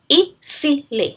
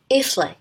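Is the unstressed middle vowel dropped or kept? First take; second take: kept; dropped. First: The unstressed middle vowel is fully pronounced. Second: The unstressed middle vowel is dropped. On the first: "if we transcribe it, it's gonna be easily" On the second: "in a quick pronunciation, we're gonna pronounce it as easily"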